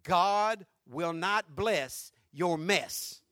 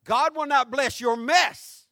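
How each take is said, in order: First: "God will not bless your mess" very slow and low, each word set apart; slow emphatic line. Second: "God will not bless your mess" loud and slow, rising on "not"; preached emphasis. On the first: Pastor driving home the key line, very slow and low. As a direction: lay it down word by word. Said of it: "get this if you don't get nothing else". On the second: Pastor repeating the key line to the church, loud and slow. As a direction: proclaim it to the back row. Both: Acted.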